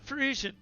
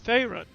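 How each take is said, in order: First: The name is said like 'Frisian'. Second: The name is said like 'Farron'. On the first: The speaker calls it wrong. "I've been mispronouncing it" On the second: The speaker calls it right. "it's Farron"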